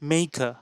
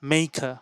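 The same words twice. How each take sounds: No difference in how they are said.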